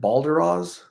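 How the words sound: The name is said with an English pronunciation. The speaker calls it wrong. "in English, they're like Balderas"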